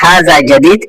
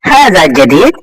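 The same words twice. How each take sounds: First: It is said plainly without an extra push. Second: It is said with a questioning push. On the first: It states that the thing is new. "যদি কি ধাক্কা না দেন তখন অর্থ হবে হাজা জাদিদ এটা নতুন" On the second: It asks whether the thing is new. "একটু ধাক্কা দিয়ে বলবেন"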